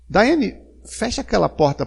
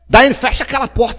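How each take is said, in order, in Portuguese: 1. O pedido é feito em tom gentil. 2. O pedido é feito em tom duro.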